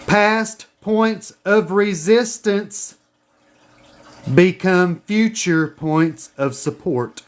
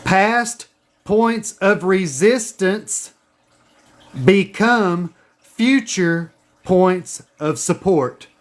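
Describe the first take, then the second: First: Slow, deliberate dictation; dictation pace. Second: Slow, deliberate dictation again; dictation pace. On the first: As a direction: say it slowly for them to write down. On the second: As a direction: spell it out slowly so they can write. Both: Shown as a demonstration. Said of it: "Write this down".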